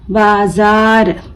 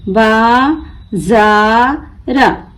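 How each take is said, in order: First: Said in the usual way. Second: बाजार very slow in three pieces, बा, जा, र; broken into syllables. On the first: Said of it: "मिलाकर पढ़ें". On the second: Shown as a demonstration. Teacher breaking the word for learners, बा... जा... र apart. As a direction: stretch and separate each part of बाजार. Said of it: "तोड़ तोड़ कर पढ़ना सीखें".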